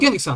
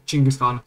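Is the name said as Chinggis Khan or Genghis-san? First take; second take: Genghis-san; Chinggis Khan. First: The name is said as Genghis-san. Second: The name is said as Chinggis Khan. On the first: The speaker calls it wrong. "It's actually not pronounced Genghis-san" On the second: The speaker calls it right. "but Chinggis-Khan"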